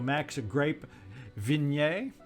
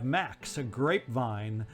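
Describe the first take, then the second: First: The surname is said with French flair. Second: The surname is said in plain English.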